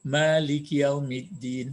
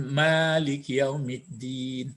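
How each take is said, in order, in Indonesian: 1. Vokal pertama pada Malik dibaca panjang. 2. Vokal pertama pada Malik dibaca panjang.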